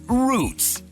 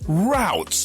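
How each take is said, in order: First: The vowel sounds like the one in 'boot'. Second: The vowel sounds like the one in 'out'. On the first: The speaker calls it wrong. "not roots" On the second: The speaker calls it right. "Routes, not roots"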